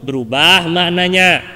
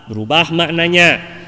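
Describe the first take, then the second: The two takes are said the same way.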